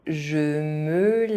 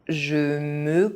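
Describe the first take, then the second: The two takes are said the same way.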